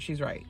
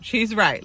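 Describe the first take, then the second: First: Dropped soft, almost under the breath; quietly conceding the point; muttered agreement. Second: "She's right" said firmly and louder, stress on "She's"; emphatic agreement. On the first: Vlogger agreeing with Amaya, muttered softly. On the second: Vlogger backing Amaya, repeated firmly. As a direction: insist on it the second time. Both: Shown as a demonstration. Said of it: "[name], shut up".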